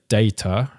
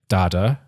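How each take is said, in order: First: The word is said with a British pronunciation. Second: The word is said with an American pronunciation. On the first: "British people say data" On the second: "apparently Americans say data"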